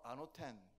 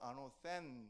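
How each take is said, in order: First: The middle consonant is a plain t sound. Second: The middle consonant is a th sound. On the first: This is how it is said in Greek. "헬라어로 아노텐 이렇게 말하고요" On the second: This is how it is said in English. "영어 발음은 아노센 이렇게 발음합니다"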